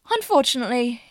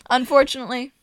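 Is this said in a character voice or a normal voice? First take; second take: character; normal. First: It is said in a put-on character voice. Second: It is said in the speaker's ordinary voice.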